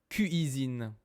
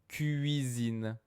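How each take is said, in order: The two takes are said the same way.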